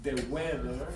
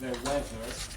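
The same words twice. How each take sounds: First: The words begin with a stop 'd' sound. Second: The words begin with a fricative 'th' sound. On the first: The speaker calls it wrong. "le bajaban puntos en los orales, porque decían the weather" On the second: The speaker calls it right. "instead of the weather"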